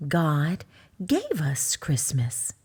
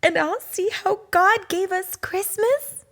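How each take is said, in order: First: Lower, slow and gentle; slow, low mama bear voice; mother bear. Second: Much higher, eager rising question; a small cub asking mama excitedly; hopeful little cub. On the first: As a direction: say it as a patient mama. Mama Bear answers the cub. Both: Acted.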